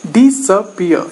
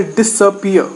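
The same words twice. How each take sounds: First: "disappear" said deliberately, syllable by syllable; syllable stress demo. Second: Said in the usual way. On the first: Shown as a demonstration. Teacher repeats "disappear" to show secondary stress, syllables picked out. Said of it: "notice the change in the syllable". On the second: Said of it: "not quite as noticeable".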